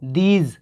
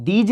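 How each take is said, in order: First: "these" with a dental d and a long ee; correct pronunciation. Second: "these" said the mistaken way; wrong pronunciation. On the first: Teacher gives students the right "these". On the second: Teacher contrasts the wrong "these" for students. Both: Shown as a demonstration. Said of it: "these नहीं".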